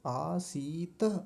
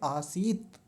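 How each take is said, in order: First: The final t is followed by a short vowel. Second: The word stops sharply on a bare t. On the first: "अगर हलंत नहीं होता ... फिर ऐसा बोलते" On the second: "हलंत है ... वहीं रुक जाएंगे"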